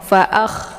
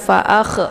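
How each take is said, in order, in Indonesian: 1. Bunyi kh mengalir keluar dengan desis angin. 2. Bunyi kh dipantulkan dengan vokal setelahnya. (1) "seperti orang ngorok ya" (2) "tidak boleh dibaca pantul, jangan fa'akh"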